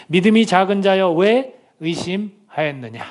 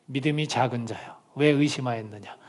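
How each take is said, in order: First: Stern rebuke. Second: Gentle rebuke. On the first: Jesus rebukes Peter. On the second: Jesus's words repeated softly. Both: Retold or imitated.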